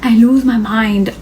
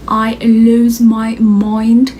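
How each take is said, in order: First: Said in the usual way. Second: Stretched-out I lose my mind, slow; drawn out slowly. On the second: Shown as a demonstration. To her viewers, recalling the shock, slowed and drawn out. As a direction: let the words drag as if dazed.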